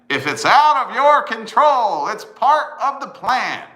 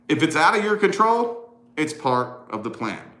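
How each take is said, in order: First: The sentence is said noticeably louder. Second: The sentence is said at normal volume.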